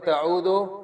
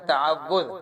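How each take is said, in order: First: The word ends with a d and o sound. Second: The word ends with a z sound. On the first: The speaker calls it wrong. "कुछ लोग पढ़ते हैं ताऊदो, गलत है" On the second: The speaker calls it right. "ये ता असल में है तावुज़"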